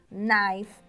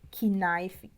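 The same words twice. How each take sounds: First: The initial K sound is silent. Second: The initial K sound is pronounced. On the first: The speaker calls it right. "a gente fala" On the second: The speaker calls it wrong. "A gente não fala"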